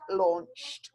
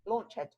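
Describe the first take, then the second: First: The ending is one sound, with no extra syllable. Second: The ending is said as an extra syllable. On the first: The speaker calls it right. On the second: The speaker calls it wrong.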